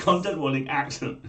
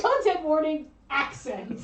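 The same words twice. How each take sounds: First: Loud, higher alarm announcement; mock alert voice. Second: Loud, higher, announcing like a system alarm; mock alert voice. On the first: Host echoing the co-host's joke warning, mock alarm voice. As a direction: echo the warning like a siren. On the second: Co-host jokingly sounding an alarm about the accent, mock alarm voice. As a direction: blare it like a security alarm.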